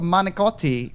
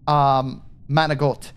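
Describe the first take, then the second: First: The word ends with a full final vowel. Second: The final vowel is dropped, ending in a consonant.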